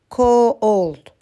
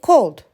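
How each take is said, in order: First: The word is said slowly, drawn into parts. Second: The word is said quickly as one part. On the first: The speaker calls it wrong. "We cannot say cold" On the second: The speaker calls it right. "We just say cold"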